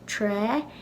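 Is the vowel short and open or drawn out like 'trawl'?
open. The word ends in a plain open 'ah' vowel. This is how it is said in Ulster. "some people in Ulster will pronounce this tra"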